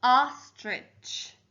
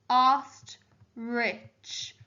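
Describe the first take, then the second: First: Said in the usual way. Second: "Ostrich" as ost, pause, rich; split into syllables. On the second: Shown as a demonstration. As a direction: sound "Ostrich" in two separate beats. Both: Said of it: "actually the second syllable".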